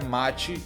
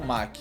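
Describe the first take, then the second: First: The name is said with a 'chi' sound. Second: The name is said with a 'k' sound. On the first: The speaker calls it right. "o certo é mate" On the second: The speaker calls it wrong. "e não Mac"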